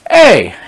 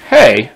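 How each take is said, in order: First: It is said loudly and sharply to demand attention. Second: It is said softly and casually, without force.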